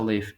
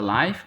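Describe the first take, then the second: First: It is said the way the verb is said. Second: It is said the way 'live broadcast' is said. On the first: It means to reside somewhere. The speaker calls it right. "Como verbo se pronuncia live" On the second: It means something is broadcast in real time. The speaker calls it wrong. "No se pronuncia live. Sí existe como con esa pronunciación, pero es otro uso. Es decir que hay una transmisión en vivo"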